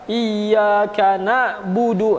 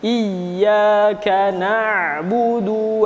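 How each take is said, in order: First: A hard break cuts the word like a comma. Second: The word flows smoothly without a hard cut. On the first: The speaker calls it wrong. "bukan ada koma ... Eh, salah" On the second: The speaker calls it right. "seperti itu"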